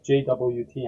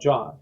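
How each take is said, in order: First: It is spelled out letter by letter. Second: It is said as a single word, jot. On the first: "I have heard people pronounce it as J W T as well" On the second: "it is called J O T"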